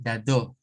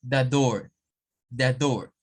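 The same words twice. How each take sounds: First: The door with no R, British accent; British accent demo. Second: The door with a sounded R, American accent; American accent demo. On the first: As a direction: say the door like a Brit, do. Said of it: "Un británico va a decir". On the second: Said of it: "un norteamericano le dice". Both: Shown as a demonstration.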